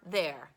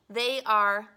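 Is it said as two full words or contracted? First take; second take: contracted; full. First: It is contracted into one syllable. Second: It is said as two full words. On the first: "we're going to say they are or there" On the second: "we're going to say they are or there"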